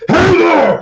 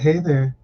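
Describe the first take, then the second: First: It is said loudly. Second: It is said quietly.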